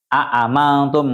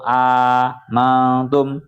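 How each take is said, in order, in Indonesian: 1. Kedua hamzah diucapkan dengan jelas. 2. Hamzah kedua berubah menjadi vokal panjang. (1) "Kalau dibaca tahqiq itu berarti aamantum" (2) "dengan diganti alif"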